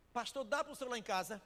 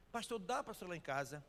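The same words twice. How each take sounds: First: Higher and louder, pressing hard on "dá"; urgent plea. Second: Said in the usual way. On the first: Retold or imitated. Wife urgently begging the pastor to come, louder. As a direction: push "dá" up and loud, as if begging him to come. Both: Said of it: "Pastor, quer falar com o senhor".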